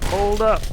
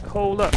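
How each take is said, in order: First: Raised, higher urgent call; urgent hold up. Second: Said in the usual way. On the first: Real, not acted. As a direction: stop everything, loud and high. Urgent reaction in VR game.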